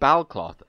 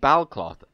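First: The second syllable is said as 'cloth'. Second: The second syllable is said as 'cloth'.

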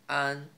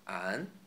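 First: It is said in the first tone. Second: It is said in the second tone.

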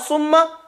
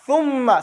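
First: It begins with a hissing s sound. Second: It begins with a th sound between teeth. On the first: The speaker calls it wrong. "You say summa or summa, that's your tongue. Is behind your two buck teeth" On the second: The speaker calls it right. "But if you stick your tongue out"

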